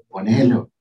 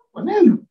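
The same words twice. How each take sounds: First: Said in the usual way. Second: Ponelo pitched high and punched loud; emphatic command. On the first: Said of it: "Si Dios te lo inspiró así". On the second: Shown as a demonstration. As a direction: fire ponelo as a sharp high order. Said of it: "No, ponelo".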